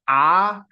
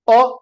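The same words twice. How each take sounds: First: The vowel is said long. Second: The vowel is said short. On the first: "Dirgha alphabets are" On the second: "every alternate alphabet"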